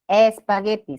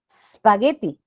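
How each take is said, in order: First: The word starts with an added e vowel. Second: The word starts directly with the s sound. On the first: The speaker calls it right. "se le agrega la E" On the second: The speaker calls it wrong. "No podemos pronunciar así"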